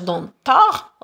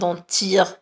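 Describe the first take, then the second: First: The final vowel sounds like 'a'. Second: The final vowel sounds like 'i'. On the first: "On ne va pas dire dentard" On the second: "On ne va pas dire dentir"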